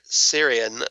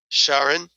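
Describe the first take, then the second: First: The name begins with an s sound. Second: The name begins with a sh sound.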